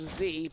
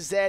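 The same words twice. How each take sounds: First: The letter is said as zee. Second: The letter is said as zed. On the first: The speaker calls it wrong. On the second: The speaker calls it right.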